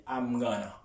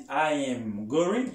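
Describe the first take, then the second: First: I'm gonna said fast, going to squeezed to gonna; reduced gonna. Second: Very slow I am going; slow full form demo. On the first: Teacher showing the reduced American form, gonna. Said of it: "li di". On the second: Teacher showing what Americans do not say, slowly. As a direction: stretch out I am going word by word. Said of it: "Li pa di". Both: Shown as a demonstration.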